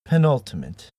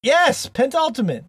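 First: Penultimate said pe-NUL-ti-mate with no extra n; correct pronunciation. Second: Pentultimate with an extra n, pen-TUL-ti-mate; mispronounced. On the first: Shown as a demonstration. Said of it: "we're learning things every day". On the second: Real, not acted. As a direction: say pentultimate slowly, stressing TUL. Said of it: "that I did not say pentultimate".

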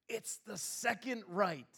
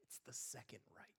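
First: Slow, drawn-out "second right"; husband slowly repeats the wife's words. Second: Whispered, much softer; wife quietly admits the mistake in a whisper. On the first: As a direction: spell it out slowly, pointedly. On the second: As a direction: whisper the correction under your breath. Retold whisper correction. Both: Retold or imitated.

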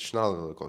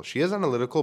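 First: Said in the usual way. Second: "is" pushed up high, correcting himself; stress on IS. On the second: Shown as a demonstration. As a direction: lean on "is" to fix the slip.

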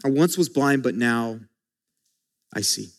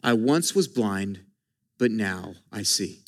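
First: Quiet, with a pause before I see; softly repeated. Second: Reverent quote. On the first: Preacher repeating the verse for the church, softer still. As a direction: drop to near silence at the end. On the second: Preacher lifting the key verse to the congregation, hushed. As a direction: savour each word like a treasure. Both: Shown as a demonstration. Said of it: "the most powerful words in Scripture".

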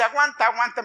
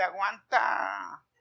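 First: Louder, higher retold urging; brisk, raised "aguanta, aguanta"; urging to endure. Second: Very slow, drawn-out "aguanta"; long-dragged imitated retort; mocking retort. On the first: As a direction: imitate someone insisting you bear it. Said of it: "me dice". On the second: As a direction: stretch "aguanta" out as a mock comeback. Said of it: "me dieron ganas de decirle".

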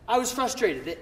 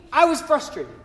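First: Said in the usual way. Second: Louder, higher "I was frustrated" stressing I; emphatic. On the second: Shown as a demonstration. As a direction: punch "I was frustrated" with force. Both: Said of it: "And for me".

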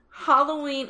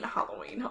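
First: Topic announced with a lift; announcing. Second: Whispered repeat. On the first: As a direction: call out the topic brightly. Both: Acted. Repeats topic softly.

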